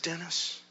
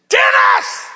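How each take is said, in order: First: Very soft, hushed call; hushed, careful whisper. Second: High, explosive scream; loud re-enacted scream; screaming back. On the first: Retold or imitated. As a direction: whisper the name gently. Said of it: "whispered it". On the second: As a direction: scream the name to cut through a rant. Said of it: "And I screamed back".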